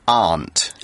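It is said with a British pronunciation. "In the UK, we say aunt"

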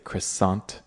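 It is said with an American English pronunciation. "most Americans would say croissant"

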